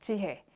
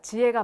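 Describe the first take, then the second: First: The middle h sound is clearly pronounced. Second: The middle h sound is weakened or dropped. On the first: It sounds refined and polished. The speaker calls it right. "신경 써서 발음해주면 굉장히 고급스럽게 들립니다" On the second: This is how most people casually say it. The speaker calls it wrong. "거의 이응 발음화를 많이 해요"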